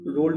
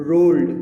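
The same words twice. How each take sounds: First: Said in the usual way. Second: rolled said much louder, with falling stress; stressed word. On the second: Shown as a demonstration. Teacher stressing a repeated poem word: loud stress. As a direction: punch rolled hard to show the repeated word. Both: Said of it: "जोर देने के लिए".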